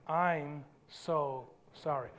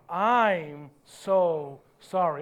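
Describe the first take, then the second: First: It is said plainly, without extra force. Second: It is said with strong, forceful conviction.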